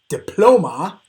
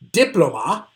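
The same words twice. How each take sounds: First: The stress is on the second syllable. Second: The stress is on the first syllable. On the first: The speaker calls it right. "it's that middle one" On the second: The speaker calls it wrong. "three possibilities for how to properly pronounce this word"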